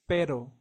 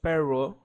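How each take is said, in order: First: The r is a quick Spanish tap. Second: The r is pronounced like an English r. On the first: The speaker calls it right. "it's pero" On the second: The speaker calls it wrong. "the letter R doesn't sound like the English R. It's not pero"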